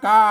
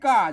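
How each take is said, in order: First: The syllable is said on a level tone. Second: The syllable is said on a falling tone.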